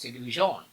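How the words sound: It is said with a French pronunciation. "that's how the French pronounces the television"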